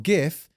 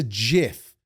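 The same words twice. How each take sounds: First: "gif" with g as in gift; hard g. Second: "gif" said like "jif"; soft g. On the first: Inventor correcting the world, "gif" with hard g. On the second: Inventor insisting on his pronunciation, "gif" as "jif". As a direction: say "gif" starting with a j sound. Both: Shown as a demonstration. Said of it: "It's not gif, it's a gif".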